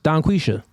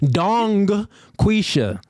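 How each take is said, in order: First: Said quickly, with no G sound heard. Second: The first name ends with a clear G sound. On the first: "if you say it fast, the G disappears" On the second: "You want me to pronounce that Dong Quisha?"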